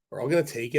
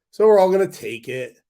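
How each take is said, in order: First: Said in the usual way. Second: Louder, higher declaration of WE'RE; emphatic. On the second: Shown as a demonstration. Telling viewers everyone will accept it, emphatic. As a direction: push "were" up and out. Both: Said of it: "repeats the line more quietly".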